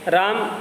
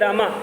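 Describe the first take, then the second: First: The word ends in the consonant m. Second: The word ends in a long a vowel. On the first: "जैसे राम" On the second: "तो कुछ लोग बोलने लगे रामा"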